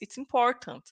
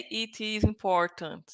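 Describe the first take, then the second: First: It is contracted into one syllable. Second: It is said in full, as two words. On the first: It sounds like natural speech. The speaker calls it right. "You say it's it's important" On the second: It sounds like reading rather than natural speech. The speaker calls it wrong. "we don't say it is important"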